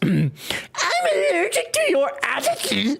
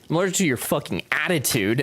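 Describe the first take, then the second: First: It is said in a put-on voice imitating Brett. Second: It is said in the speaker's normal voice.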